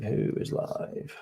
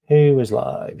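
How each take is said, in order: First: Same question, whispered slowly to himself. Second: Asking the room out loud, a bit louder; calling out. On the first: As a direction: mutter it under your breath, slowly. Repeats question under breath. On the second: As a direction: call the question out to chat. Searching for live streamers. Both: Real, not acted.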